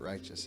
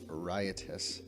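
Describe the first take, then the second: First: It is said with two syllables, like righteous. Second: It is said with three syllables, like riot-us. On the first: The speaker calls it wrong. "Everyone keeps pronouncing it righteous" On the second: The speaker calls it right. "it is pronounced riotous"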